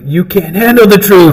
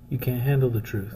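First: It is said loudly, yelled. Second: It is said without yelling.

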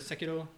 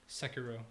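First: The name is said with Japanese-style pronunciation. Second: The name is said with English pronunciation. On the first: "I'm not going to do the Sekiro thing because I'm not sure if that's right" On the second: "I'm going to do the English way and just say Sekiro"

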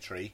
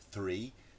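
First: The word begins with a plain t sound. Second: The word begins with a th sound. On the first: "like with my Irish accent, like tree, we say tree" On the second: "instead of three"

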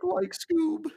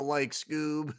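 First: It is a full, exaggerated Shaggy voice. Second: It is a toned-down, half Shaggy voice.

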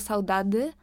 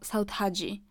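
First: The last syllable starts with a plain d sound. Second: The last syllable starts with a dzh sound. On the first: "albo saudady" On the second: "saudhadzi chyba to jest brazylijska wymowa"

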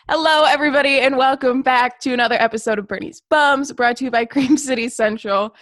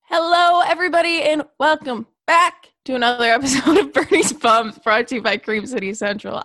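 First: It is said with moderate, calmer energy. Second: It is said with very high energy.

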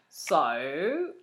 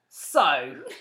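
First: The word is drawn out long. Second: The word is said short, not drawn out. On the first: The speaker calls it right. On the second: The speaker calls it wrong.

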